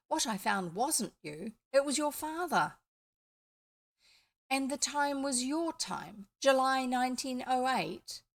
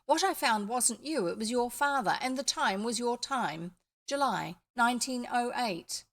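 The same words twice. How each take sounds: First: "your time" and "July nineteen oh eight" in a mild questioning English rise; asking back about July nineteen oh eight in English, with a gentle questioning rise; misread as a question. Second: Said in the usual way. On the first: Real, not acted. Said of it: "Oh, sorry, I missed a connection there". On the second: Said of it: "I missed a connection there".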